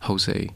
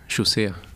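First: The name is said with an English pronunciation. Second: The name is said with a Swedish pronunciation. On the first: "in English I actually like" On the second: "In Sweden, they pronounce it"

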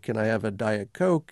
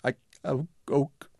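First: The voice is clear and continuous. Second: The voice breaks up, dropping words.

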